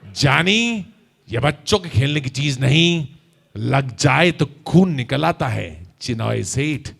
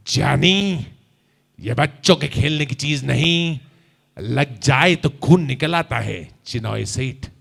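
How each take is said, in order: First: Low, slow, deliberate menace; Raaj Kumar dialogue. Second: Low, slow menacing filmi drawl; Raaj Kumar dialogue. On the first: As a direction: warn him with a cool filmi threat. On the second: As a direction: threaten with a cool, heavy voice. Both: Shown as a demonstration. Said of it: "आप ऐसे ही बोलिएगा". (धीमी, भारी, धमकी भरी राजकुमार आवाज़)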